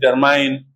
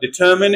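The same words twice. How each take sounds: First: The last syllable rhymes with fine. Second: The last syllable rhymes with tin. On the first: The speaker calls it wrong. "also mispronounced like examine and determine" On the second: The speaker calls it right. "but they are determine and examine"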